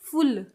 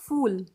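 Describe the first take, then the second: First: The word is said a bit more forcefully. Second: The word is said softly and politely. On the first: "थोड़ा जोर से बोलते हैं तो फुल" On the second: "polite वे में बोलते हैं फूल"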